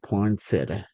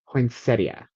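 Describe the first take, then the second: First: The word ends without the 'ia' sound. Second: The word ends with a clear 'ia' sound. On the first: The speaker calls it wrong. "I just always said poinsettia" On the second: The speaker calls it right. "The ia is actually supposed to be at the end"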